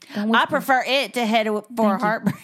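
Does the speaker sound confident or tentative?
confident. It is said boldly, with more force.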